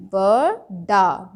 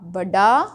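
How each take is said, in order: First: Slow, stretched बड़ा with hard retroflex ड; slow wrong reading. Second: बड़ा said quickly with flapped ड़; correct reading. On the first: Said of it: "बड़ा तो होता नहीं". (बड़ा को धीरे खींचकर गलत उच्चारण) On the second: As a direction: say बड़ा crisply the right way. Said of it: "बिल्कुल सही शब्द है". (बड़ा को सही, जल्दी बोलना) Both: Shown as a demonstration.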